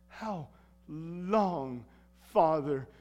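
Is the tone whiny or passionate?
passionate. It is said as a passionate, earnest cry.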